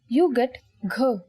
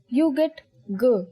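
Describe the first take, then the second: First: The consonant is released with a puff of air. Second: The consonant is released without a puff of air. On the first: "when you say it with aspiration" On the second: "when you say g without aspiration"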